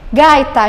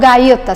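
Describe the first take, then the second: First: The stress falls on the first syllable. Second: The stress falls on the second syllable. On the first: The speaker calls it right. "Gaita e não gaita" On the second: The speaker calls it wrong. "se eu colocar acento"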